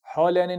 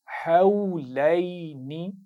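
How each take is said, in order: First: हौलैनी with a plain short "au" and clipped ending, said quickly; wrong pronunciation. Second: हौलैनी drawn out slowly, each vowel held in tajweed style; correct recitation. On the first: Teacher showing pupils the mistake to avoid in हौलैनी. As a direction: say हौलैनी the wrong way, flat and fast. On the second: Teacher giving pupils the correct recited हौलैनी. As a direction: recite हौलैनी slowly and carefully, every sound clear. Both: Shown as a demonstration. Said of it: "हौलैनी नहीं पढ़ना".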